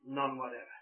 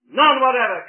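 First: Dropped low and soft, almost to nothing; quiet. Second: None whatever hurled out loud and high. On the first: Preacher answering his own question, hushed and soft. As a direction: let None whatever fall away softly. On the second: Preacher answering his own question, a loud emphatic cry. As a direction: slam None whatever out at full force. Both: Shown as a demonstration.

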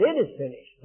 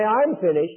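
First: "It" lifted as the key word; stress on It. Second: "I'm" punched as the key word; stress on I'm. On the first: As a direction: lean on "It", let "is finished" fall. Corrects misquote with real words. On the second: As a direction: lean on "I'm", let "finished" follow. Contrasts misquote with real words. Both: Shown as a demonstration.

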